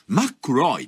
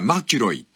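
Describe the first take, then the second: First: It has a held k and no i vowel. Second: It has a single k followed by an i vowel. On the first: This is the accurate original sound of the name. "本当はあの音を正確に言うとマックロイですね" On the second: This is how Japanese ears hear the name. "私どもの耳にはマキロイっていう"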